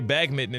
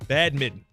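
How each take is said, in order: First: It is said with a g, as bagmitten. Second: It is said with a d, as badminton. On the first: The speaker calls it wrong. "I used to say bagmitten until like last week" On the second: The speaker calls it right. "That's how you pronounce it"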